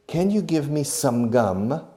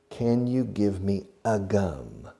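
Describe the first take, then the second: First: Higher, louder "Can you give me some gum" rising at the end; correct example. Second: Slow, deliberate "Can you give me a gum" with "a" set apart; incorrect example. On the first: English teacher modelling the correct request, higher and emphatic. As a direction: model "some gum" brightly lifted as the right question. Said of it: "We say". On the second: English teacher showing learners what not to say, slow and deliberate. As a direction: lay out "a gum" slowly as the wrong form, falling at the end. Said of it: "We never say in English". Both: Shown as a demonstration.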